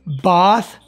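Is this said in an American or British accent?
British. It is said with a British accent. "ये British है"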